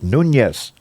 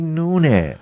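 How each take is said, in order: First: The name is said with Spanish pronunciation. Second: The name is said with New Orleans pronunciation. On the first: "the way Hispanics pronounce it, which is Nunez ... with the tilde" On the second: "you go down in New Orleans, where I'm from, they're gonna say Nunez"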